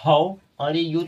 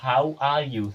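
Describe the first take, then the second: First: "How are you?" dragged out very slowly and louder, each word read as spelled; wrong spelling-style reading. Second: Said in the usual way. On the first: Shown as a demonstration. Teacher shows students the wrong way, very slow and louder. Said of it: "आप ऐसे पढ़ेंगे". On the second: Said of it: "तो नहीं, नहीं, ये है".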